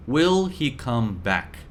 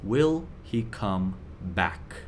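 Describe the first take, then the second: First: Said in the usual way. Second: Lower, softer and slow, worried; anxious question, quiet and slow. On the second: Retold or imitated. Teacher voicing trader's worried question, soft and slow. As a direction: ask it under your breath, slowly. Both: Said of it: "you're thinking one question".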